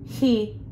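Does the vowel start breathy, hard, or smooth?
breathy. The vowel starts with a breathy rush of air. "The second example was too much air passing through"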